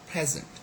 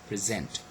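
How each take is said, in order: First: The stress is on the first syllable. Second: The stress is on the second syllable. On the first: It is used as a noun. "is a noun we say present" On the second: It is used as a verb. "As a verb we say present"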